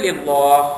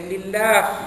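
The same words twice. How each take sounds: First: The L sound is heavy and thick. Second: The L sound is light and thin. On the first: The speaker calls it wrong. "Bila baca yang lain dia baca lillah" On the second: The speaker calls it right. "Kena baca lillah. Dinipiskan"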